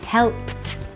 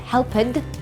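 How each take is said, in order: First: The p goes straight into t, no vowel. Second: A vowel sound is added before the final t. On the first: The speaker calls it right. "It's P jumps to t sound" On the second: The speaker calls it wrong. "No vowel sound. Not helped"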